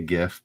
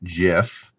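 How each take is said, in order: First: It starts with a hard g, as in graphics. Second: It starts with a soft, j-like g sound. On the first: This is how the speaker personally says it. "I say GIF" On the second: This is how the creator says it should be said. "the creator of it says you should pronounce it GIF"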